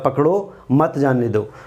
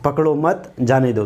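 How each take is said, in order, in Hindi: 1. बल 'पकड़ो' शब्द पर है। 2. बल 'मत' शब्द पर है। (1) "पकड़ो पर हम बल देते हैं तो अर्थ बदल जाएगा" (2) "अगर हम मत पर बल देते हैं"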